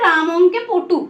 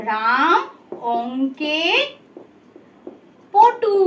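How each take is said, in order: First: Said in the usual way. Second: Word by word with long pauses; dictation pace. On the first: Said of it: "কি লিখলাম আমি". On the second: Shown as a demonstration. Teacher writes a second sentence, word by word. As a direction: stop after each word, as if writing it. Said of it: "ধরো আমি একটা বাক্য লিখছি".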